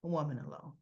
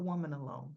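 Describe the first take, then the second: First: "A woman alone" with "woman" leaned on, low, in disbelief; stress on woman again. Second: "Woman" leaned on, low; stress on woman. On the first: Repeating it to friends, pressing "woman" harder in disbelief. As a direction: drive home "woman" in "A woman alone". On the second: Recapping a soap to friends, stressing "Woman" in disbelief. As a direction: weigh the word "Woman" with disbelief. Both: Shown as a demonstration. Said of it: "Who does that?".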